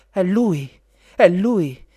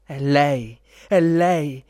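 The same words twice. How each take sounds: First: Loud, high, thrilled exclamation; emotional cry. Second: Loud, thrilled prince's exclamation; emotional cry. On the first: Princess sees her prince at last, excited high cry. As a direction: cry out in moved excitement, pitched up. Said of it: "gridò emozionata". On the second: Prince recognises his beloved, loud excited cry. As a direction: call out with moved excitement. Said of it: "gridò emozionato il principe". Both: A narrator's reading.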